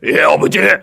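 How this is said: It is said in a gruff, rough voice.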